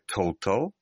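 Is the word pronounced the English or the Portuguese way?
English. It is said with English pronunciation.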